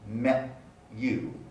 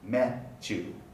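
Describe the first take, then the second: First: A separate t and y sound are heard. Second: The t and y merge into ch. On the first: "in slow, careful speech" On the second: "in fluent speech, the two segments get blended together into the palatal affricate ch"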